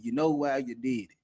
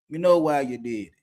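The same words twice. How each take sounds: First: Said in the usual way. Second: "know" hit louder after a pause; stress on know. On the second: Retold or imitated. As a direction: lean hard on "know", louder. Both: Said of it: "That was one thing I used to tell them".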